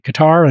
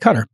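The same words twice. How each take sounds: First: It is pronounced the way Americans say it. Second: It is pronounced the way people in Qatar say it. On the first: "Here in the United States, they say Qatar" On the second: "in Qatar, they say Qatar"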